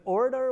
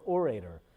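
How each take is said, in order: First: "orator" accented on the first syllable; first-syllable stress. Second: "orator" as or-AY-ter; second-syllable stress. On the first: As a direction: say "orator" as OR-uh-ter. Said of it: "with the accent on the first syllable". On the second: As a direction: put the accent on the middle of "orator". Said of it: "on the second syllable". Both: Shown as a demonstration.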